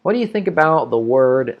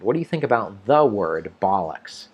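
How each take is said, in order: First: Said in the usual way. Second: Teacher's correction, with "the" standing out; stress on THE. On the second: Shown as a demonstration. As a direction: lean on "the" before "word". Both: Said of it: "Let's fix that sentence".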